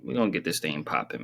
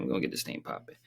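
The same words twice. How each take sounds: First: Said in the usual way. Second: Hushed whisper, no voice. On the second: Shown as a demonstration. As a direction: whisper it to yourself.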